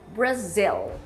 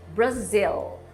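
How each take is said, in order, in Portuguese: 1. Ela é pronunciada do jeito inglês. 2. Ela é pronunciada do jeito inglês.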